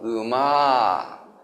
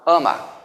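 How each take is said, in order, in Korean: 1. 전라도 억양으로 말합니다. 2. 경상도 억양으로 말합니다. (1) "전라도 사람은" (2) "경상도는"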